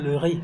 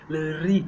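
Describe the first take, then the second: First: The r is said the way people in France say it. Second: The r is said the way former colonies say it. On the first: "people from France are gonna hear le ri" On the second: "most France, I mean colonies, use this as ri"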